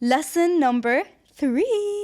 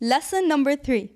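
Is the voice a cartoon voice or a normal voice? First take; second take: cartoon; normal. First: It is said in a put-on cartoon voice. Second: It is said in a normal speaking voice.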